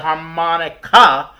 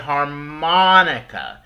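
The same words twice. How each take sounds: First: The stress falls on a syllable other than the second. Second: The stress falls on the second syllable. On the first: The speaker calls it wrong. "We don't say harmonica" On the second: The speaker calls it right. "We say harmonica. We put the stress and the emphasis on the mon part"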